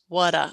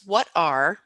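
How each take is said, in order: First: The R sound at the end is dropped. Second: The R sound at the end is pronounced.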